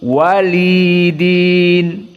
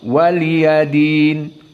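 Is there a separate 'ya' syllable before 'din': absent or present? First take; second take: absent; present. First: The 'ya' is silent, lengthening the 'li' instead. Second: A short 'ya' syllable comes before 'din'. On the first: "di sini disukunkan ya-nya. Jadi tidak difathahkan waliyadin seperti Hafs" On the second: "dan ini qiraah Hafs yang kita hafal"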